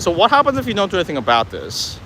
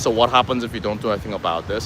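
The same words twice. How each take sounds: First: It is said in a concerned, challenging voice. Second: It is said in a flat, monotone voice. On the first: The speaker calls it right. "come off a bit concerned and a bit challenging" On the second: The speaker calls it wrong. "if you ask it too monotone"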